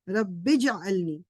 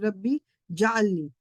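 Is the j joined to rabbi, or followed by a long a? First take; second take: joined; long a. First: The j joins rabbi with no vowel after. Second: The j is separate and followed by long a. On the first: The speaker calls it right. "बा को जीम से ज्वाइन करके बोलना है" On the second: The speaker calls it wrong. "बाज दफा लोग बोलते हैं रब्बी जाअलनी, ये जाअलनी नहीं है"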